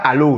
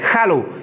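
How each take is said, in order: First: The word starts without an h sound. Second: The word starts with an audible h sound. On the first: The speaker calls it wrong. "c'est pas hello, non" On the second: The speaker calls it right. "Il faut prononcer le H qui est devant le nom"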